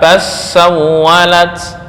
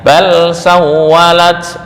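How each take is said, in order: First: The l sound merges into the next consonant. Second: The l sound is pronounced clearly.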